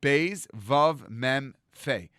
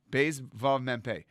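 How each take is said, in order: First: Beis Vav Mem Fe, letters spelled out slowly one by one. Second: Beis Vav Mem Pe, slow, final letter as Pe; corrected spelling. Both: Shown as a demonstration. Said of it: "he could not say the word bump".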